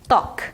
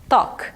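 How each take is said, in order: Both takes have the same delivery.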